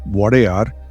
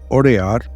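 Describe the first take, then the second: First: The name starts with a W glide. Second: The name starts with a plain vowel.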